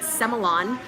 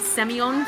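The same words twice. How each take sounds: First: The word is said the way Australians say it. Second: The word is said the speaker's usual non-Australian way.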